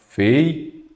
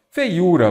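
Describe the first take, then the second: First: "Feiura" broken into separate syllables with long gaps; split into syllables. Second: Said in the usual way. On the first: Shown as a demonstration. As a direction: say "Feiura" syllable by syllable, pausing between each. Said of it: "vamos separar em sílabas aqui embaixo". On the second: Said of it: "vamos separar em sílabas".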